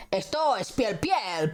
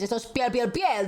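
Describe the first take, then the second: First: "piel" said twice, as if genuine; doubled for sincerity. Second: "piel" rattled off three times, rising on the last; tripled, sounding dubious. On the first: Vouching that it is real leather, "piel" doubled. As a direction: repeat "piel" once to vouch for it. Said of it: "seguro dos veces es como más real". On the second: Insisting too much on leather, "piel" tripled. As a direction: repeat "piel" once too often. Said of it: "Si lo dices tres veces es como, me está mintiendo". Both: Shown as a demonstration.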